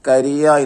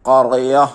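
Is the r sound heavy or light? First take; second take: light; heavy. First: The r is thin and light. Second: The r is thick, filling the mouth. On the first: The speaker calls it wrong. "തർഖീക്കായിട്ട് വായിക്കാൻ പാടില്ല" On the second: The speaker calls it right. "ഖറിയ എന്ന് തന്നെ വായിക്കണം"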